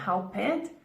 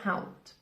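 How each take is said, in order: First: The word does not end with a T sound. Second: The word ends with a T sound. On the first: The speaker calls it wrong. "it's not helped" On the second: The speaker calls it right. "T ending here"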